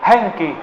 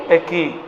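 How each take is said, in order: First: "Hengki" with a nasal ng before the k; attempted Madurese word. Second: "Eki" said without the nasal n; attempted Madurese word. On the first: Preacher repeating the corrected Madurese yes, careful pronunciation. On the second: Preacher trying a Madurese yes for the congregation, tentative pronunciation. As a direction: say "Eki" with a plain k, no ng. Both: Shown as a demonstration. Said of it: "susah mengulangnya".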